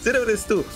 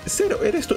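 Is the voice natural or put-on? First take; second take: natural; put-on. First: It is said in the speaker's natural voice. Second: It is said in a put-on character voice. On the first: The speaker calls it right. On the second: The speaker calls it wrong.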